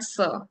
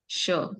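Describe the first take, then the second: First: The word sounds like 'sir'. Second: The word sounds like 'sure'. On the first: The speaker calls it wrong. "not sir" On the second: The speaker calls it right.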